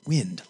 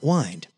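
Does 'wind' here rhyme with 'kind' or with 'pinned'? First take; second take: pinned; kind. First: The vowel is short, rhyming with pinned. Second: The vowel is long, rhyming with kind. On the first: It names moving air. The speaker calls it right. "but wind, like the air" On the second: It names the act of winding, as with a toy. The speaker calls it wrong. "Not wind"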